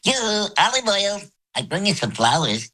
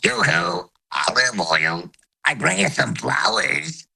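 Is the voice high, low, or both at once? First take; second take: high; both. First: It is said in a high voice. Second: High and low voices sound at once.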